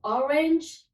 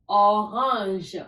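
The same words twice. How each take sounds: First: "Orange" pronounced the English way; English "Orange", lifted at the end; English pronunciation. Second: "orange" pronounced the French way; French "orange": throaty r, nasal second vowel; French pronunciation. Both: Shown as a demonstration. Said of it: "Just the pronunciation is different".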